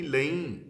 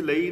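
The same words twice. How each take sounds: First: ਲਈ with a nasalised final vowel; ਲਈ as "laeen", meaning "I may take"; correct reading of ਲਈ. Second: ਲਈ with an oral final vowel; ਲਈ misread like the word for "for"; wrong reading of ਲਈ. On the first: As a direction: end ਲਈ on a nasal "een". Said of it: "ਇੱਥੇ ਲਈ ਨਹੀਂ, ਲਈ". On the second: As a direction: say ਲਈ as "lai", no nasalisation. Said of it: "ਇੱਥੇ ਲਈ ਨਹੀਂ". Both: Shown as a demonstration.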